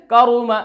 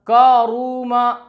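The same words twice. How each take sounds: First: करूमा quick, ka-ru-ma with short 'u'; maruf, unstretched. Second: करूमा stretched to kaa-roo-maa; drawn-out vowels. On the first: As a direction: keep करूमा short, lips rounded. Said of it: "मारूफ आवाज़ में". (करूमा मारूफ, बिना खींचे) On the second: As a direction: hold all three vowels of करूमा. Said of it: "नहीं पढ़ना आपको". (करूमा खींचकर) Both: Shown as a demonstration.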